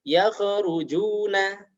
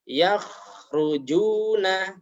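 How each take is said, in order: First: The kh is bounced with an echoing release. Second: The kh flows smoothly without any bounce. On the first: The speaker calls it wrong. "memantulkannya saat sukun" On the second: The speaker calls it right. "Yang seharusnya dibaca"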